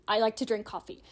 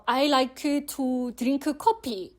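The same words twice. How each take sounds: First: Said in the usual way. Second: Korean-accented English, syllable by syllable. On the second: Shown as a demonstration. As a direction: say it as if spelt in Hangul. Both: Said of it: "thinking of the English using Hangul".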